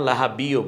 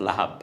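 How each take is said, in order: First: The word ends with an added -i vowel. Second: The word stops cleanly on the final b. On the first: The speaker calls it wrong. "লাহাবিও বলছি না" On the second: The speaker calls it right. "বলছি লাহাব"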